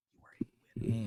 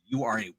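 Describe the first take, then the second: First: Soft breathy whispered encouragement; whispered sincere praise. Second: Said in the usual way. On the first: Real, not acted. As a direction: whisper it like a secret. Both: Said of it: "repeated as whisper".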